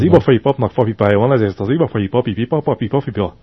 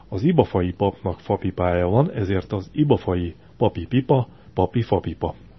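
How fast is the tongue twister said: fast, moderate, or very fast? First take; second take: fast; moderate. First: It is said at a fast pace. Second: It is said at a moderate pace.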